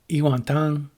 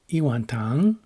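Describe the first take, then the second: First: The pitch does not rise at the end. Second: The pitch rises at the end. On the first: It means a bowl of soup. "I mean a bowl of soup" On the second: It means a bowl of sugar. "with an English question intonation, raising the pitch at the end"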